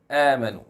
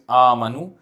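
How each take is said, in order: First: The hamza is pronounced light. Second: The hamza is pronounced heavy. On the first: The speaker calls it right. "because the hamza is light" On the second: The speaker calls it wrong. "Don't say it as amanu"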